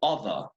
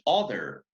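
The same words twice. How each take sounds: First: The final R sound is dropped. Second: The final R sound is clearly pronounced. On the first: "the R in the end, is being dropped" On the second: "that is American English"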